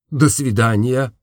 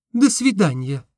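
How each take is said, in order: First: Said in the usual way. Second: Высоко, девичьим голосом; прощание юной девушки. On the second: A narrator's reading. (девушка прощается с мечтателем, высоким девичьим голосом)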